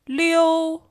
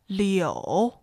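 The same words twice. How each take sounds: First: The pitch stays high and level. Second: The pitch dips low, then rises.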